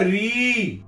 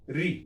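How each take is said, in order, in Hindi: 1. स्वर को लंबा खींचा जाता है। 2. स्वर बस थोड़ी देर रहता है। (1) "दीर्घ" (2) "ये हरस्व है"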